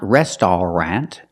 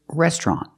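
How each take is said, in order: First: The word is said with three syllables. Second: The word is said with two syllables. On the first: The speaker calls it wrong. "We don't pronounce it with three syllables" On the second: The speaker calls it right. "we pronounce it with two syllables"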